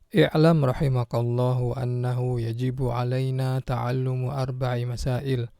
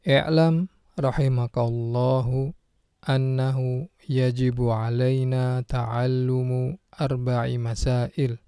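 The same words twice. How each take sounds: First: It is read at a fast pace. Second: It is read at a slow pace. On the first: "terlalu cepat?" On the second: "saya akan baca ulang dengan perlahan"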